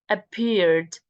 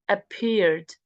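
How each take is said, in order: No difference in how they are said.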